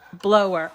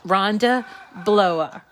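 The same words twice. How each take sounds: First: "Blower" with the final r sounded; corrected pronunciation. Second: "Blower" with a New England dropped final r; New England accent. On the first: Host correcting winner's surname, "Blower" with a clear final r. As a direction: say "Blower" as "BLOH-er", r pronounced. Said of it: "I'm sorry, that's my New England accent". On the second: Host reading out winner's surname, New England accent on "Blower". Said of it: "that's my New England accent". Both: Real, not acted.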